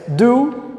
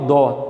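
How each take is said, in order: First: It is said with an English-like vowel. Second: It is said with a Portuguese-like open vowel. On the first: "Mas do, o verbo to do" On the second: "Eu falo dó, beleza"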